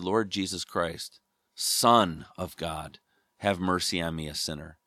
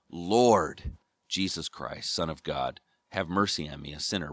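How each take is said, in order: First: The stress is on Son. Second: The stress is on Lord.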